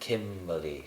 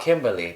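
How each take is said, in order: First: The M sound is said with strong emphasis. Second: The M sound is said plainly, without emphasis. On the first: The speaker calls it right. "if you didn't put the emphasis on the M like that" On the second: The speaker calls it wrong. "not Kimberly"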